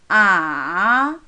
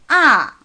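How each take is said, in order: First: The pitch starts low, dips, then rises. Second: The pitch falls sharply and briefly. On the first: "좀 낮은 음에 시작해서 완전히 내려갔다가 또 올라가요" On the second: "조금 강하고 짧게 떨어지는 거예요"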